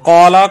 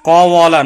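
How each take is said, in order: First: It has a long vowel and two syllables. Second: It has a w sound and three syllables. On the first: This is the simplified form actually used. "ওয়াকে আলিফ দ্বারা পরিবর্তন করা হয়েছে" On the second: This is the original underlying form. "এটা মূলত ছিল ক ওয়াল"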